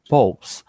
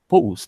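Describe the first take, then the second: First: The vowel sounds like 'oh'. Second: The vowel sounds like 'oo'. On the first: The speaker calls it right. "Seria com som de O mesmo" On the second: The speaker calls it wrong. "pronunciando mais com o som de U ... Não seria polls"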